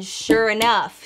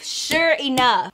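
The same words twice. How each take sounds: First: Said in the usual way. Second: "sure enough" stretched out slowly, word by word; "sure enough" said slowly for dramatic effect; drawn-out emphatic repeat. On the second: Real, not acted. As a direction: lean slowly on each part of "sure enough".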